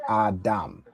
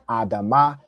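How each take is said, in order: First: The word ends on a consonant, no final vowel. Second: The word ends with an extra final vowel. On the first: The last two letters are joined together. The speaker calls it right. "you say adam" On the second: Each letter is read as a separate full syllable. The speaker calls it wrong. "instead of saying adama"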